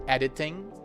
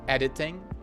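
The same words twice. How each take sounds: First: The word ends with a nasal ng sound. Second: The word ends with a nasal ng sound.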